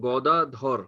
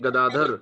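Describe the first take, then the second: First: It is said with a Bengali-style first vowel. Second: It is said with a Hindi-style first vowel. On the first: "Bengali में हो जाएगा" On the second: "जैसे हम हिंदी में कहते हैं"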